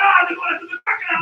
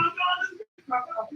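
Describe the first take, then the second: First: Loud, thrilled call; excited shout. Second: Said in the usual way. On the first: Retold or imitated. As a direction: cry out at the chase. Voiced reaction to the crocodile.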